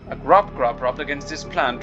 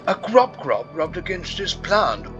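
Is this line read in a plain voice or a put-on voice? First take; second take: plain voice; put-on voice. First: It is read in the speaker's plain voice. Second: It is read in a performed, put-on voice. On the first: The speaker calls it wrong. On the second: The speaker calls it right.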